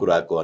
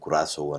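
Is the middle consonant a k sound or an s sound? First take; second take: k; s. First: The middle consonant is a k sound. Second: The middle consonant is an s sound. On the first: This is how Indians tend to read the name. "కురాకో అని మనం Indians కురాకో అని అనుకోవచ్చు" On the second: This is how the name was pronounced by others. "కురాసో అని pronounce చేశారు"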